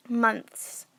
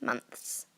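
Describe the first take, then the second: First: Months said as mumps-like munts; wrong pronunciation. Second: Months with a clear th; months, the th sounded out; corrected pronunciation. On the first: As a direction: say Months without the th. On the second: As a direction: say months carefully with th. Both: Shown as a demonstration. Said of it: "not months".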